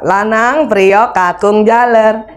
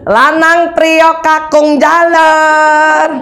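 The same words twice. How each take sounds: First: It is called a bit higher and louder. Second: It is shouted very high and angrily.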